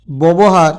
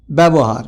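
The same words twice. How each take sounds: First: ব্যবহার said as "bobohar"; spelling pronunciation. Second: ব্যবহার said as "bebohar"; spoken pronunciation. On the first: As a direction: say ব্যবহার with o in the first syllable. (বানান-অনুযায়ী "ববহার" উচ্চারণ) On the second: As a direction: say ব্যবহার with a front first vowel, "byabohar". (প্রচলিত "ব্যাবোহার" উচ্চারণ) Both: Shown as a demonstration. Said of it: "উচ্চারণে".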